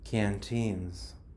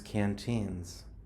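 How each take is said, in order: First: The second syllable has a long 'ee' vowel. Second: The second syllable has a long 'ee' vowel.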